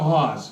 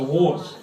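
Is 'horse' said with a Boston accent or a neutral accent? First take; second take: Boston; neutral. First: It sounds like 'hoss', with no r sound. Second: It is said with a clear r sound. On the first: The speaker calls it wrong. "it's not a horse" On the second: The speaker calls it right. "it's a horse"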